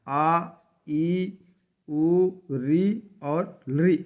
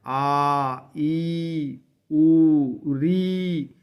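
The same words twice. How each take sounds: First: Each vowel said short and clipped, one beat apiece; short vowels demo. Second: आ, ई, उ, री each drawn out long, उ much louder; long vowels demo. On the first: Teacher reciting the short vowels आ, ई, उ, री, लृ one beat each. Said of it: "ये ह्रस्व स्वर हैं". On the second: Teacher showing students the long vowels, each held to two counts. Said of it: "ये आठ हैं". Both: Shown as a demonstration.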